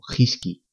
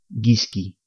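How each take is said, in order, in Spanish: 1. La palabra empieza con una h aspirada. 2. La palabra empieza con una g fuerte. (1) "Si no ponemos ni la diéresis ni la U, leemos" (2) "Si no utilizamos la diéresis, al leer estas palabras diríamos"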